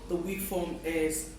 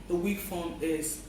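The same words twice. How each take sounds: No difference in how they are said.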